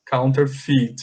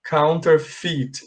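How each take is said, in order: First: Counterfeit, drawn out, ending "fit" with an I sound; slow model word. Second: Counterfeit said slowly, the final syllable as "fit"; slow model word. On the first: Teacher repeating counterfeit slowly for the class. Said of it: "Aqui tem som de I". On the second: English teacher modelling counterfeit slowly for students. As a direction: spell out counterfeit slowly with an I sound. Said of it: "A pronúncia dela é assim". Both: Shown as a demonstration.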